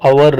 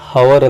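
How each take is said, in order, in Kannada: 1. ಈ ಪದದ ಆರಂಭದಲ್ಲಿ h ಸೌಂಡ್ ಇಲ್ಲ. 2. ಈ ಪದದ ಆರಂಭದಲ್ಲಿ h ಸೌಂಡ್ ಇದೆ. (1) "ಸೈಲೆಂಟ್ ಇರುತ್ತೆ" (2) "ಇದನ್ನ ಹವರ್ ಅಂತ ಓದೋ ಹಾಗಿಲ್ಲ"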